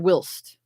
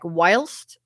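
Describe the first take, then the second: First: The vowel is a short I sound. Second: The vowel is a long I sound.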